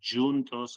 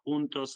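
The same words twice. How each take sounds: First: The word is said with a Portuguese pronunciation. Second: The word is said with a Spanish pronunciation. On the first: "juntos in Portuguese" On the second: "juntos in Spanish"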